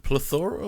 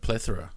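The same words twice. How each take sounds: First: "plethora" said as pluh-THOR-uh; stress on second syllable. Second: "plethora" said as PLETH-uh-ruh; stress on first syllable. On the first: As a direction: stress the middle of "plethora", with a long OR. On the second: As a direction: stress the start of "plethora", with a short E. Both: Shown as a demonstration. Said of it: "double pronunciation".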